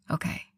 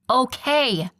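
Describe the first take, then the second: First: Softly, quiet and tender. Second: Higher, loud impatient yell. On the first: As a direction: say it gently to her. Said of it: "his voice soft". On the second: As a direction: snap it out loud. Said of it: "Beatrice yelled". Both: Acted.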